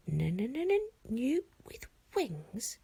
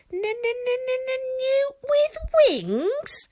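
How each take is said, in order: First: Said in the usual way. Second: Squeaky little dragon. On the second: Acted. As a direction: squeal it like an insulted tiny dragon. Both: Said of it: "repeated Toothless".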